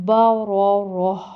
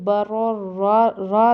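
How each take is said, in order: First: با را راہ closed with a clearly audible breathed h; no bare alif, end با را راہ on h. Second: با را را ending on an open long vowel, no h; با را را without any breath at the end; wrong alif ending. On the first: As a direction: breathe out a distinct h ending با را راہ. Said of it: "صحیح clear ہا کی آواز آئے". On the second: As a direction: leave the last را open like an alif. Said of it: "نہیں پڑھنا، مطلب الف کی آواز نہ آئے". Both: Shown as a demonstration.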